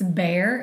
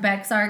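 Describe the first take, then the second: First: The x is silent; it sounds like 'bear'. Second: The x sound is pronounced in the name. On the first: The speaker calls it right. "It's Bear" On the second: The speaker calls it wrong. "it looks like Bexar County"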